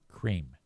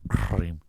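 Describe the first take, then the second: First: The word is made at the front of the mouth. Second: The word is made at the back of the throat. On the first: "if a normal person says cream, it's up here. It's up on my teeth and the tip of my tongue" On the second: "you can feel that little fucking thing in the back of your throat going cream"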